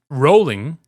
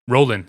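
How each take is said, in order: First: The word ends with a full -ing sound. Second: The word ends without the final g sound. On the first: The speaker calls it wrong. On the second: The speaker calls it right. "Drop that G"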